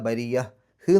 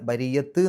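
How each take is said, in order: First: The word ends with an h sound. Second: The word ends with a t sound. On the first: The speaker calls it right. "എന്നുള്ള രൂപത്തിലാണ് അവസാനിപ്പിക്കേണ്ടത്" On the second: The speaker calls it wrong. "എന്നുള്ള രൂപത്തിലല്ല"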